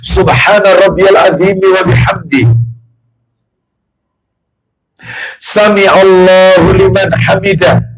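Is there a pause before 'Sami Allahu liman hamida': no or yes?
yes. There is a clear pause before the end. The prayer is calm and unhurried. The speaker calls it right. "Contoh nomor dua sekarang"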